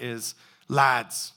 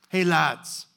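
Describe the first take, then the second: First: Said in the usual way. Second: A lightly voiced casual, friendly call to the boys; folksy greeting. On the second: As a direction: hail them from the shore like old mates, easygoing. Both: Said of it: "It's very, very folksy".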